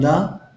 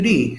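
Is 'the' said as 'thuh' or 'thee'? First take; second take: thuh; thee. First: It is said with a short 'thuh' vowel. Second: It is said with a long 'thee' vowel. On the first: The next word starts with a consonant sound. "the sound shifts from the" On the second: The next word starts with a vowel sound. "to the"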